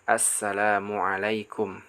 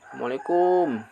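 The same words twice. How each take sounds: First: The final syllable is kept short. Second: The final syllable is drawn out long. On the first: The speaker calls it right. "yang benar" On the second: The speaker calls it wrong. "dipanjangkan assalamualaikum, ya, kayak gitu, ini juga kurang tepat, salah"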